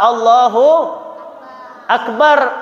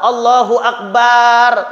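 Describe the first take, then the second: First: The final vowel of Akbar is short. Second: The final vowel of Akbar is drawn out long. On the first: God is the Greatest. The speaker calls it right. "Bacanya apa? Allahu Akbar" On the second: It turns into a word meaning drum. The speaker calls it wrong. "baknya jangan panjang"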